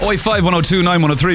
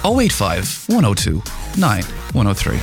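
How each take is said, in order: First: The number is said fast. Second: The number is said slowly.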